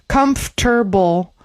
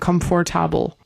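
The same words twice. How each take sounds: First: Some syllables are dropped as in normal speech. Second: Every written syllable is sounded out. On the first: The speaker calls it right. "Comfortable is a little bit easier" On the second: The speaker calls it wrong. "than comfortable"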